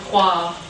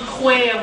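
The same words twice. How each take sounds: First: It is said with a standard French pronunciation. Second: It is said with a Picard regional pronunciation. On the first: This is the usual standard form. "au lieu de croire" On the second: This is how the older local speakers said it. "des mots qu'on dit comme croire"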